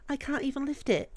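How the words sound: It is said in a British accent.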